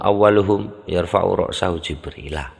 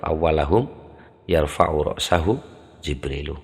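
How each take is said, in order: First: The first word is awwalu, the name ends -a. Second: The first word is awwala, the name ends -u. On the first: "Kalau dibaca fayakunu awaluhum yarfa'u ra'sahu Jibrilah" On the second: "kalau awalahum yarfa'u ra'sahu Jibrilu"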